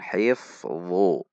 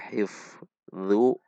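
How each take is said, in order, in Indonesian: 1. Konsonannya tebal, pangkal lidah menegang. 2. Konsonannya tipis, pangkal lidah rileks. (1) "namun hifdzu" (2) "Tidak dibaca hifdzu, hifdzu itu dzal"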